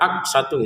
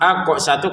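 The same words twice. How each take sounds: First: The q sound is plain without an echoing release. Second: The q sound is bounced with an echoing release. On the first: The speaker calls it wrong. "jangan sekedar aqsatu gitu ya" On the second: The speaker calls it right. "qafnya kita pantulkan ya"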